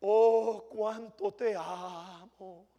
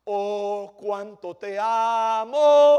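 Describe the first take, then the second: First: Drawn out with "te" leaned on, hushed and fake-sweet; mock devotion. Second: Slow, swelling "cuánto te amo" with "amo" pushed loud; mock devotion, louder. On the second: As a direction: ham up the fake love, rising to a loud "amo". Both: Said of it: "cristianos que son tan fáciles".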